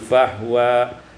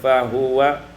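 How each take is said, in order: First: The h has no vowel after it. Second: The h is followed by a short u vowel.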